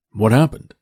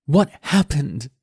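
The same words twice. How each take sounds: First: Said in the usual way. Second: Put-on high, slow, bitter teen girl throwing it back; mock his question in disgust; furious daughter echo.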